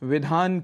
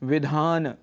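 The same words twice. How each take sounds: First: The word ends on n with no vowel. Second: A short vowel is sounded after the final n. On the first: The speaker calls it wrong. "अंतिम अ को हम यहाँ छोड़ जाते हैं" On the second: The speaker calls it right. "न और अ है अंत में"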